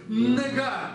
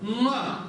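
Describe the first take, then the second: First: A tongue-tip n is followed by a hard g. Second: One back-of-tongue nasal ng sound begins it. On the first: The speaker calls it wrong. "«Не» у нас зубной. ... Нет" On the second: The speaker calls it right. "спинка языка упирается у нас э, в заднюю часть нашего горла"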